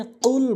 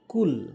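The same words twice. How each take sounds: First: কুল pushed from the tongue root; proper Arabic qaf; correct qul. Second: কুল said with a plain k; mispronounced qul. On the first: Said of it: "এখানে কুল বলতে হবে". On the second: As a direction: common error with light k. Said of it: "আমরা বলি কুল". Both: Shown as a demonstration.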